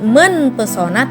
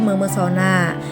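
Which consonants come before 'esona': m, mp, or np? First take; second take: np; m. First: An n sound comes before the p. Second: The p is dropped, leaving only m. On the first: The speaker calls it wrong. "atau bukan menpesona" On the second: The speaker calls it right. "huruf P luluh menjadi M"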